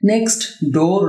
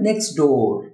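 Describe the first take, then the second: First: The t at the end of next is pronounced. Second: The t at the end of next is dropped. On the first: The speaker calls it wrong. "না হয়ে" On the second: The speaker calls it right. "হবে নেক্সট ডোর"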